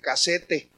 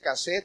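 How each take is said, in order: First: The word is pronounced in a Spanish way. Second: The word is pronounced in an English-like way. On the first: A Mexican should use the Spanish form. The speaker calls it right. "tú eres mexicano y debes decir casete" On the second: The speaker's border community borrows from English. The speaker calls it wrong. "nosotros los de Mexicali estamos agringados y decimos cassette"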